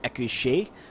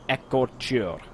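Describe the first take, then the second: First: The middle vowel sounds like 'ay'. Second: The middle vowel sounds like 'or'. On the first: The speaker calls it wrong. "I have been pronouncing them as Equiche because I for- figured that the E U R would be an A sound" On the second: The speaker calls it right. "I actually found a correct pronunciation, and it's Ekor"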